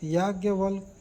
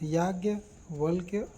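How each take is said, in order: First: The word ends in a plain 'k' sound. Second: The word ends in a 'kya' sound. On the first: The speaker calls it wrong. "गलत है" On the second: The speaker calls it right. "सही है"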